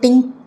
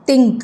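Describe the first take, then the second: First: The word begins with a hard t sound. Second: The word begins with a soft th sound. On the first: The speaker calls it wrong. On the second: The speaker calls it right.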